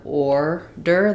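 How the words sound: The first vowel is an 'or' sound. This is how most of the US says it. "most places in the U S we have order, the or sound here"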